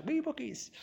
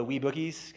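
First: "Wee Bookies" jumps high and soft, "Wee" lilted up then falling; a cute, squeaky "Wee Bookies" savouring the Scottish word; playful mock-Scottish twee. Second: Said in the usual way. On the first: Shown as a demonstration. Lecturer teasing the quaint Scottish name, said high and soft. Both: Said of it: "'cause they're Scottish".

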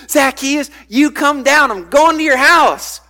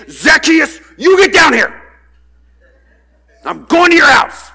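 First: Bright, friendly call up the tree; cheerful welcoming call; happy Jesus. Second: Loud, higher threatening shout; stern scolding shout, higher and louder. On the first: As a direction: invite him down kindly, higher pitched. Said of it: "There are some kids, it's like, Jesus is happy". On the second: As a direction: yell him down like an angry parent. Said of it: "It's more like a threatening kind of thing". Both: Retold or imitated.

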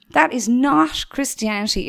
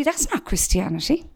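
First: "That is not Christianity" louder, spelling out "is" firmly; emphatic repeat. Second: Said in the usual way. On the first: Shown as a demonstration. Preacher insisting to bored youth, louder emphatic repeat. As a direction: drive the repeat home, louder. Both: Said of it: "repeated for emphasis".

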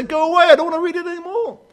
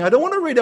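First: High, loud, sulky pushing away; a reluctant reader telling the Bible to go away, sulky and high; petulant refusal. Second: Said in the usual way. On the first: Retold or imitated. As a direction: whine it like a child shutting the book. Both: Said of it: "I want to shut it and say".

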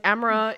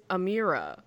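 First: "Amara" with no "ee" in the middle; mispronounced name. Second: Said in the usual way. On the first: Shown as a demonstration. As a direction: say "Amara" the botched way, unlike Amira. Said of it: "Amara is Amira". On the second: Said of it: "till I realized Amara is Amira".

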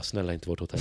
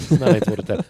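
First: Soft hushed begging under the breath; quiet plea. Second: Louder, urgent begging; louder desperate plea. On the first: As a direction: pray quietly to yourself. Begging the lads skip their hotel. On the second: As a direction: plead harder as hope fades. Begging grows more desperate. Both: Retold or imitated.

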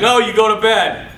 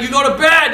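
First: Louder retold parental refusal; firm dad. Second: Higher, louder escalated order; mock dad's shout. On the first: Dad refusing son's plea, imitated firm order. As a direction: imitate a father refusing firmly. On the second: Dad arguing with son, imitated angry shout.

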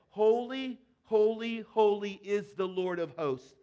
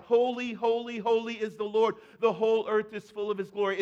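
First: Said in the usual way. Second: Loud proclaiming call; crying out. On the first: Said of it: "one called out to another and said". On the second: Retold or imitated. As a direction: call it out across heaven like an angel. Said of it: "another one would cry out".

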